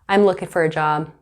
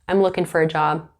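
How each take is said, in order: Both takes have the same delivery.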